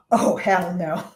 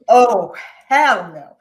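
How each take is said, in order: First: Said in the usual way. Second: Defiant. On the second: Retold or imitated.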